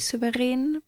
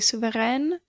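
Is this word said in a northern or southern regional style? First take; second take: southern; northern. First: It is said with a southern, Austrian pronunciation. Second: It is said with a northern German pronunciation. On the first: "I'm from the south, so I say Souverän" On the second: "if you're from the north, or just anywhere further north than Vienna, you'd probably say Souverän"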